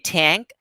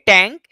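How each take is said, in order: First: The t is said with a puff of air. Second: The t is said without a puff of air. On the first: The speaker calls it right. "They don't say tank" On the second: The speaker calls it wrong. "They say tank"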